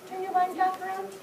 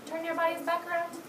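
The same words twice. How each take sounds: The two takes are said the same way.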